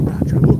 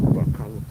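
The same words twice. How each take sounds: First: Panicked call. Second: Said in the usual way. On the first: Retold or imitated. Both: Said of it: "starts kinda freaking out".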